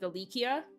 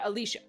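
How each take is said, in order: First: The name is said with a K sound. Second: The name is said without a K sound. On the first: The speaker calls it wrong. "where they turned it to a K" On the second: The speaker calls it right. "I will call her Alicia"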